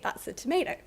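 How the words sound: It is said in an American accent. "a speaker of U S English would say"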